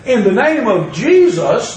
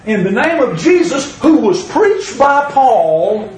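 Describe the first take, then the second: First: Said in the usual way. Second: Mock exorcist's command. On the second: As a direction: intone it like a self-important exorcist. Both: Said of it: "And they said".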